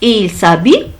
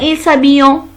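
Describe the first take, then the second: First: The verb ending is silent. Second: The verb ending is said as a nasal 'en'. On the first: The speaker calls it right. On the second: The speaker calls it wrong.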